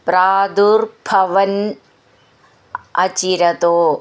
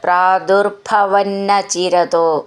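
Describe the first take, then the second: First: The two words are said as separate words. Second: The two words are run together as one.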